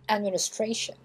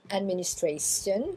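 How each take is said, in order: First: The ending is said as 'shen'. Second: The ending is said the French way. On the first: The speaker calls it right. "on a la terminaison en shen" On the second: The speaker calls it wrong. "C'est pas administration"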